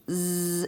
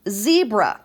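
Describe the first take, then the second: First: "Z-E-B-R-A." as held sounds z, eeb, er, uh, not letter names; sounded out slowly. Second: Said in the usual way. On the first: Shown as a demonstration. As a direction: stretch and separate every sound of "Z-E-B-R-A.". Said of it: "Let's break it apart".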